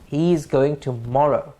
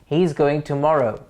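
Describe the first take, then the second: The two takes are said the same way.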